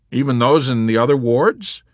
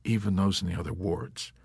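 First: High, loud, incredulous question; alarmed question. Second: Soft, subdued answer; meek confirmation. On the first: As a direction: ask loudly, rising in disbelief. Yossarian questions chaplain, who echoes softly. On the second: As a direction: confirm it quietly, at an even pitch. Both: Acted.

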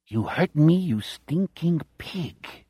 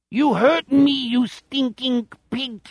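First: Put-on a growl in a plain Chicago accent, dropping soft. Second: High, slow alien-German whine; outer space German accent. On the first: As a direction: spit it out like a Chicago thug. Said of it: "In his Chicago voice". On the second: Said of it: "outer space German accent". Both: A narrator's reading.

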